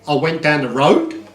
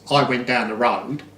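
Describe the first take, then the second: First: The voice rises at the end like a question. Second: The voice falls at the end like a statement.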